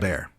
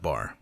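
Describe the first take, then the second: First: The vowel sounds like the one in 'hair'. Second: The vowel sounds like the one in 'car'. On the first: It is how the word is usually said. "but it is bear" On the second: It is how some speakers from the Midwest say it. "he pronounced it bar"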